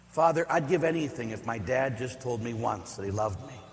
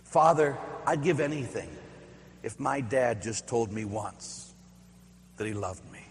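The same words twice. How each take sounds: First: Said in the usual way. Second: Retold sobbing plea. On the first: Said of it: "repeats the quote". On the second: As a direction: quietly imitate a boy crying to the priest. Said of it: "sobbing through his tears".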